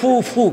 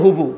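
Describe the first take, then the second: First: It starts with f and repeats the f sound. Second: It starts with h and has a b sound. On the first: This is the standard form. "এটা শুদ্ধ ভাষা" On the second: This is the local regional form. "আমগো দেশে বাপের বোনের কো হুবু"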